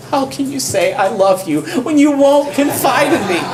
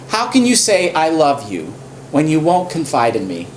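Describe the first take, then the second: First: Much higher, hammed-up whine, half laughing; whiny nagging Delilah. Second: Understated hurt complaint; lightly voiced Delilah. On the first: Delilah nags Samson, hammed-up high whine. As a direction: overdo the nagging lover's complaint. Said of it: "With such nagging". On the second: Delilah reproaches Samson, lightly mock hurt. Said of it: "She says to him".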